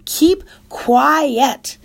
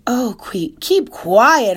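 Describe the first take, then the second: First: High, loud angry yell; hollered. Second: High, loud tearful yell; hollering. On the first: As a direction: shout him down. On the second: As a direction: snap at the brother. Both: Acted. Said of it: "hollered Fern".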